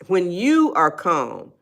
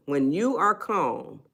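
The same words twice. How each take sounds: First: Slow, even delivery; unhurried calm demo. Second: Slow, soft delivery; unhurried calm demo. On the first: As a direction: let it drift slowly. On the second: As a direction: ease into it slowly. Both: Shown as a demonstration.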